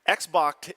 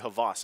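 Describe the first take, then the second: First: The name is said like the word Xbox. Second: The name is said like Havas. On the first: It is read the way it is spelled. "is how it looks face value" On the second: It is how the player himself says it. "he said that it's actually Havas"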